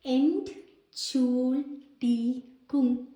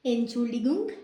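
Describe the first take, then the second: First: Entschuldigung drawn out very slowly, syllable by syllable; Entschuldigung stretched out slowly, every syllable clear; slow teaching demo. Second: Said in the usual way. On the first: Shown as a demonstration. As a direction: spell Entschuldigung out slowly for learners. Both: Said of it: "അതാണ്".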